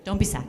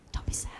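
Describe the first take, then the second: First: Said in the usual way. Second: A breathy whispered repeat of "Don't be sad.". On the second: Shown as a demonstration. Comforting the crowd, a hushed whisper.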